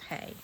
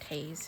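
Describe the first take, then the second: First: The name ends on the vowel, no z sound. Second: The name ends with a z sound. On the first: The speaker calls it right. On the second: The speaker calls it wrong. "Not Hayes"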